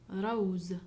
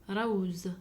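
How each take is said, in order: Both takes have the same delivery.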